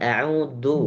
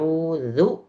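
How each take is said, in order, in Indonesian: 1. Konsonan di tengah itu bunyi seperti d. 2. Konsonan di tengah itu bunyi seperti z. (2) "jangan sampai ketukar dengan da"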